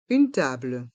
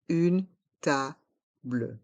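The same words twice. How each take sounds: First: Said in the usual way. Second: "Une table" split into separate slow syllables; slow model pronunciation. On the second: Shown as a demonstration. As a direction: pause between syllables of "Une table", sounding the final -ble. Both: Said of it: "Prononçons".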